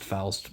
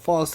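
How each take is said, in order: First: The name is said with its standard pronunciation. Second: The name is said with a personal, nonstandard pronunciation. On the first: The speaker calls it right. "I know it's pronounced Faust" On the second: The speaker calls it wrong. "I've been saying it this way for almost three hundred hours"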